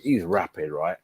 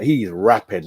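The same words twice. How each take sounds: First: Quiet. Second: Said in the usual way. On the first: Real, not acted. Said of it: "He's rapid, mate".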